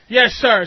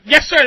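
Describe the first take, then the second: First: It is said in a half-hearted way. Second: It is said crisply, at attention.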